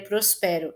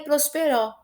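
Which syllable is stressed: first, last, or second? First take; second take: second; last. First: The stress is on the second syllable. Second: The stress is on the last syllable. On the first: "se fosse mais forte o som do pé" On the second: "E nem é prosperó"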